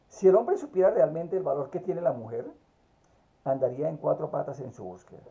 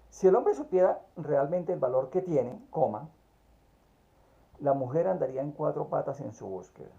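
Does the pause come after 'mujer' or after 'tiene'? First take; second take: after mujer; after tiene. First: There is a pause after 'mujer'. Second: There is a pause after 'tiene'.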